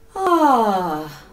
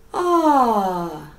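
The two takes are said the same way.

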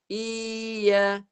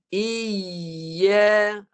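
First: The y sound is weak and the voice wavers. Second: The y sound is held firmly and clearly. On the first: The speaker calls it wrong. "tak naik tengah lidah, bunyi dia macam ni" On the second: The speaker calls it right. "naik macam ni"

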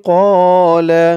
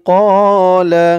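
The two takes are said the same way.

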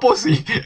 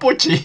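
First: The middle consonant is an 's' sound. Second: The middle consonant is a 'ch' sound. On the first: The speaker calls it wrong. "no Pussy" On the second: The speaker calls it right. "Se pronuncia Pucci"

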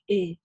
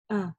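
First: The vowel is overly softened, like e. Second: The vowel is a moderate, open a. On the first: The speaker calls it wrong. "когда очень чрезмерно ее смягчают, и получается как «э»" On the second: The speaker calls it right. "Нет"

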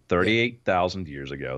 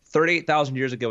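First: It is said more slowly. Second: It is said at normal speed.

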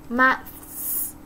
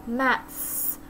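Both takes have the same delivery.

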